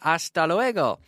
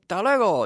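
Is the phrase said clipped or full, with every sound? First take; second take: full; clipped. First: Every vowel and consonant is clearly pronounced. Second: Some sounds are dropped, so it sounds clipped. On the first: This is the textbook pronunciation. "You don't say hasta luego" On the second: This is how people actually say it in everyday speech. "You're supposed to pronounce every vowel, every letter, but you say hasta luego"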